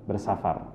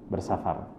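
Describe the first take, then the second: No difference in how they are said.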